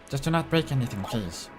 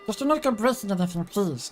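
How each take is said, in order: First: The voice is at its usual lower pitch. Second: The voice is put on higher pitched.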